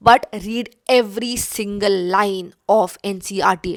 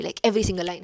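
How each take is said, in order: First: Every single line pressed hard, louder; stress on every single line. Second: Said in the usual way. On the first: Shown as a demonstration. Student advice, urging viewers to read every single line firmly.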